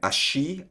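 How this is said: It is said in an Argentine accent. "like dito sa Argentina"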